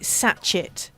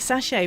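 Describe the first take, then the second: First: The word is pronounced letter by letter, as spelled. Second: The word is pronounced the French way, not as spelled. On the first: The speaker calls it wrong. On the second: The speaker calls it right.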